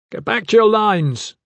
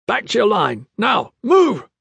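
First: Shouted command. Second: High, urgent guard's shout; bellowed order. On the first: Gavin commands the fleeing nobles to re-form, shouting. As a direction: order the whole crowd back. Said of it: "Gavin shouted". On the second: Blackguards echo the command to people inside, bellowing. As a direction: bellow short commands at a crowd. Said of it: "bellowing at the people inside". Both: A narrator's reading.

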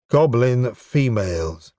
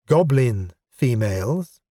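First: "Goblin females" said slowly, falling at the end; firm falling statement. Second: "Goblin females" said slowly, rising at the end; questioning rise. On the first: Correcting her misunderstanding, level statement. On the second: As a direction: turn "Goblin females" into a slow query. Clarifying as a query, rising. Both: Acted.

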